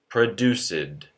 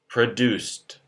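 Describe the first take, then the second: First: The -ed ending is an extra syllable. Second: The -ed ending adds no extra syllable. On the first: The speaker calls it wrong. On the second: The speaker calls it right.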